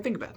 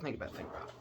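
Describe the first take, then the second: First: Said in the usual way. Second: Much softer whispered think about it; whispered urging. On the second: Retold or imitated. War faction tempting the others, whispered urging. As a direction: lean in and whisper it conspiratorially.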